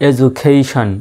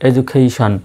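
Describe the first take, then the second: Both takes have the same delivery.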